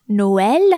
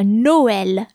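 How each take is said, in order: First: "Noël" repeated louder, open ë; French repeat. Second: "Noël" said slowly, open ë; French word. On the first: Scene: teacher repeating the word louder for students. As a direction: say "Noël" again, stronger. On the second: Scene: teacher giving the tréma example. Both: Shown as a demonstration. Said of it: "And for the tréma".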